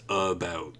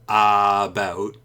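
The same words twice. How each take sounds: First: The first vowel is a reduced schwa. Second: The first vowel is a full 'a' sound. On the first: The speaker calls it right. "it's about" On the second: The speaker calls it wrong. "So it's not apple about"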